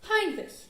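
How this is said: The name is said with German pronunciation. "whose name I just pronounced correctly for the first time"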